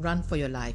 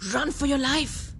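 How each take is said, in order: First: It is said flatly, without force. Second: It is said forcefully, with urgency.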